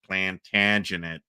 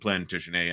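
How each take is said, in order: First: The name is said in an American Midwestern way. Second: The name is said in a French-style way. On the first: The name follows local Ohio-style usage. The speaker calls it wrong. "and not Plantagenet" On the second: The name follows the family's French origin. The speaker calls it right. "we're saying Plantagenet"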